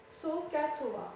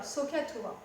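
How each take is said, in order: First: "sohcahtoa" slowly split as soh, cah, toa; three separate syllables. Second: Said in the usual way. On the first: Shown as a demonstration. Teacher showing the magic formula's three syllables, slowly separated. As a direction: spell out "sohcahtoa" in three slow beats. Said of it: "avec trois syllabes".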